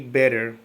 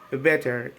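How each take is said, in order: First: It is said in an American accent. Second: It is said in a British accent. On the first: "instead of say" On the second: "British English often places the tonic accent in the first syllable"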